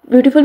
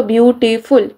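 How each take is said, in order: First: Said in the usual way. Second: beautiful split into three beats, ब्यू-टी-फुल; syllable by syllable. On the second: Shown as a demonstration. Teacher counting syllables with palm under chin, beautiful said syllable by syllable. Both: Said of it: "palm के रखें चिन के साथ".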